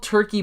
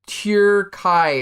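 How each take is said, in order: First: It uses the familiar English pronunciation. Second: It uses a slightly different, changed pronunciation. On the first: "it's called like it's called Turkey" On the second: "it's like pronounced slightly different"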